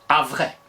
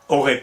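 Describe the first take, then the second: First: The first syllable is said as 'av'. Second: The first syllable is said as a plain 'o'. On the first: This is a possible older reading of the spelling. "aurait pu se lire avrait" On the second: This is how the word is read today. "il prononçait comme nous, O"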